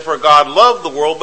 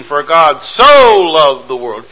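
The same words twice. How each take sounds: First: Said in the usual way. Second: "so" stretched and hit hard; slow, leaning into "so" in "For God so loved the world"; preacher showing the emphasis; stress on so. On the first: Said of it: "He could have just said". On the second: Shown as a demonstration. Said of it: "but it's an emphasis".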